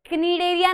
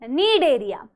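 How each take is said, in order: First: The word begins with a k sound before n. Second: The word begins directly with the n sound. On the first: The speaker calls it wrong. "इसको बेटा क्नीडेरिया नहीं बोलना है" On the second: The speaker calls it right. "सी silent है"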